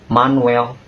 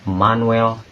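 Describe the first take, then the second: No difference in how they are said.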